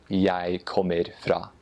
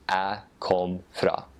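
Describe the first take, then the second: First: Slow Eastern Norwegian, full kommer. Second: Slow Northern Norwegian, chopped kom; Northern Norwegian jeg kom fra, lazy and cut short. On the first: Guest contrasting the Eastern Norwegian dialect with the Northern one. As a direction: Eastern Norwegian jeg kommer fra, all syllables said. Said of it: "that is the Eastern dialect". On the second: Guest contrasting the Northern Norwegian dialect with the Eastern one. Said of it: "in Northern dialect". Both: Shown as a demonstration.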